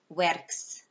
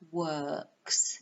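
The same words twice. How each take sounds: First: The vowel sound in the word is short. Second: The vowel sound in the word is long. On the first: The speaker calls it wrong. "It's not works" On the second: The speaker calls it right. "It's like a bleh, long sound"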